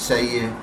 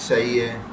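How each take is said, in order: The two takes are said the same way.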